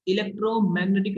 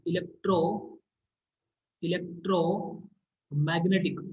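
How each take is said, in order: First: Said in the usual way. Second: electromagnetic drawn out very slowly, with a break; slow dictation. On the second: Real, not acted. Teacher writing the term for students, electromagnetic in slow dictation.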